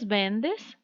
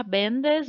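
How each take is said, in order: First: "vendes" com a sílaba final DES forte; tônica em DES. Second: "vendes" com a sílaba VEN forte; tônica em VEN. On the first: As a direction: stress the last syllable, venDES. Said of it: "com acento para o vos". ("vendes" tônico no final, como forma de vos) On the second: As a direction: stress the first syllable of "vendes". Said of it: "sem acento para tu". ("vendes" tônico no começo, como forma de tu) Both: Shown as a demonstration.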